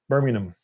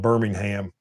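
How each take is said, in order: First: The name is said in a British accent. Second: The name is said in an American accent. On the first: This is how people in England say it. "over there they call it Birmingham. I'm probably not doing that right" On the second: This is how people near the speaker say it. "I'm doing it closer than Birmingham"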